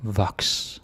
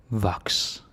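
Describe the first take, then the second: First: Voks said "vaks", falling; Voks, open o, falling tune; Danish word. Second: Voks again "vaks", falling; Voks, same open o, falling; Danish word, repeated. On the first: Teacher models Voks for learners. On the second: Teacher repeats Voks for learners. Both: Shown as a demonstration. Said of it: "teacher models word twice".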